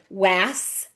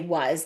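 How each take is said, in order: First: The word is sounded out literally, letter by letter. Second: The word is said in its ordinary everyday form. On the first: This is how the spelling suggests it sounds. "that's how it looks like it's spelled" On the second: This is how people actually say it. "but we say was"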